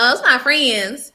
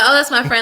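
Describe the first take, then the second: First: It is said with excited enthusiasm. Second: It is said in a plain, ordinary way.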